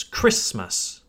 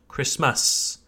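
First: KRISS-məs, "Christmas" stressed on KRISS; first-syllable stress. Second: Kriss-MASS, "Christmas" stressed on its second syllable; wrong-syllable stress. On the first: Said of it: "place emphasis on the first syllable". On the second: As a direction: misplace the stress in "Christmas" onto MAS. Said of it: "not Christmas". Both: Shown as a demonstration.

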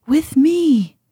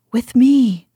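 First: Pitched up high, pleading; higher desperate cry. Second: Calling his mate, slightly louder; urgent call to follow; urgent cry. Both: Acted. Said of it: "he cried".

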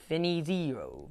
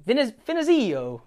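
First: A soft, hesitant try at Finizio in an Italian accent. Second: Finizio retried in a higher, sing-song Italian accent. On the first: Host trying the coach's name in an Italian accent, softly. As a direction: roll out Finizio in a half-hearted Italian accent, quietly. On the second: Host retrying the coach's name in a higher Italian accent. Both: Shown as a demonstration. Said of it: "I had to say it like an Italian as best I could".

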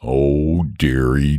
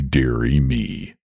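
First: Low, woeful dragon moan. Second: Lower, slower, sinking moan. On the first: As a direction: groan it out in dismay. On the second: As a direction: let the second dearie drag and sag. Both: A narrator's reading. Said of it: "moaned the dragon".

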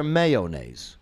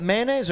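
First: Mayonnaise said as MAY-oh-naise, three syllables. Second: Mayonnaise said as MAN-aise, two syllables. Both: Shown as a demonstration. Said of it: "Is it mayonnaise or mayonnaise?".

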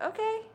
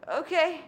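First: High, rising okay; imitated boyfriend's okay. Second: High, louder okay that falls; retold answering okay. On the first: Boyfriend answering a dinner invitation, imitated high rising okay. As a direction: imitate him agreeing, pitch lifting at the end. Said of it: "And he was like". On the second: Daughter replying to boyfriend's okay, retold louder falling okay. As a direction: echo his okay back, firmer and falling. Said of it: "And I was like".

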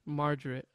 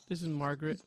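First: Margaret slurred to "mar-der-it". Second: Margaret said fully as "mar-guh-ret" with a clear g. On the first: Host names his character, saying Margaret with a d sound. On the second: Host restates his character's name, saying Margaret with a hard g. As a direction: Margaret spelled out in sound, hard g. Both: Real, not acted. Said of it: "You said two different names".

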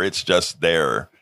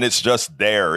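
First: "It's just there." said slower and lower, leaning on "just"; slow emphatic repeat. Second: Said in the usual way. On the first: Shown as a demonstration.

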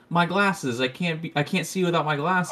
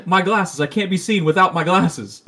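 First: A hint of a flustered Velma; a lightly voiced Velma, fussing over her glasses. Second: Higher and louder mock Johnny Bravo; retelling the cartoon, a loud hammed-up Johnny Bravo. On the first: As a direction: whimper about the lost glasses. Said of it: "she's like". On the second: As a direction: ham up Johnny Bravo's panic. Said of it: "Johnny Bravo's like".

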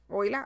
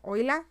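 First: Said in the usual way. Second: A questioning, higher "Oila?" sung upward; mock hello. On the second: Playing with the word for listeners: a questioning, higher "Oila?". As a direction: toss out "Oila?" as a playful rising call.

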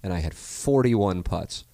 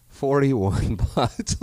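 First: Said in the usual way. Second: Slow, high, laughing repeat; laughing disbelief. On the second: Real, not acted. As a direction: stretch it out, cracking up.

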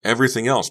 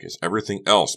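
First: Higher, louder, exasperated repeat; emphatic repeat. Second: Raised, emphatic statement; exasperated explaining. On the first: Becca answering bewildered Honey, emphatic repeat. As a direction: repeat it forcefully. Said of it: "Becca repeated". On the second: Becca explaining to Honey, exasperated. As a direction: insist on the real grievance. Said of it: "Becca said". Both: A narrator's reading.

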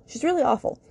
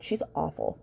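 First: Exasperated outburst about a judgmental mother; emphatic disgust. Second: Said in the usual way. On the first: Real, not acted. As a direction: lean hard into how awful she is. Repeats verdict on Grace's mom.

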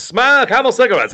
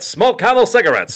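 First: "Smoke" punched first, higher; chipper 1950s ad, stress on Smoke. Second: Chipper 1950s ad. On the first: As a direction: repeat with "Smoke" leading. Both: Retold or imitated. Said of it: "cigarette commercials".

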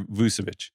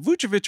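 First: Vucevic said VOO-seh-vitch. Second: Vucevic said VOO-cheh-vitch. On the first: Offering co-host the other option, Vucevic with S. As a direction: say Vucevic with an s in the middle. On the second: Asking co-host which is right, Vucevic with CH. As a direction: say Vucevic with a ch in the middle. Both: Shown as a demonstration. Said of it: "is it Vucevic or Vucevic?".

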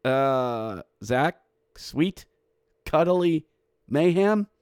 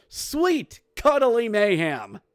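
First: Doubtful echo, rising at the end; hesitant, unconvinced repeat; puzzled questioning. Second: High, drawn-out announcer cry; slow, high, celebratory exclamation; imitated goal call. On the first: Real, not acted. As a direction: say it back as a baffled question. Doubts the announcer's odd goal call. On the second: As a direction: stretch it out like a triumphant goal call. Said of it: "Zach even said on the goal, goal call".

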